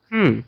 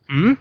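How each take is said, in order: First: The pitch falls sharply from high to low. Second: The pitch rises from middle to high. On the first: "fourth is" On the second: "Ryzen is"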